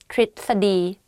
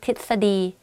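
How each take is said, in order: First: The first syllable has an r sound. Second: The first syllable has no r sound. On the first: The speaker calls it right. "the correct way of pronouncing this is tritsadi" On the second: The speaker calls it wrong. "I just say titsadi, titsadi, but it's wrong though"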